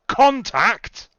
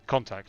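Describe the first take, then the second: First: The word is exclaimed loudly and with force. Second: The word is said flatly, without emphasis. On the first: The speaker calls it right. "You mean like that?" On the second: The speaker calls it wrong. "You're pronouncing it without the exclamation mark"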